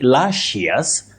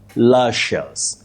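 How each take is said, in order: First: An extra 'ee' vowel is heard before '-ous'. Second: No extra vowel is heard before '-ous'. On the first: The speaker calls it wrong. "It's also wrong to say luscious" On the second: The speaker calls it right. "You say luscious. ... The I is not pronounced"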